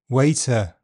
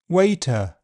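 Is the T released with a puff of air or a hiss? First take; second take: hiss; puff of air. First: The T is released with a hissing friction. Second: The T is released with a puff of air. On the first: "affricated, with a fricative release" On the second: "aspirated, with a puff of air"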